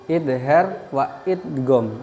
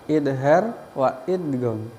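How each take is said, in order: Both takes have the same delivery.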